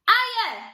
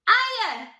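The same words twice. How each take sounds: No difference in how they are said.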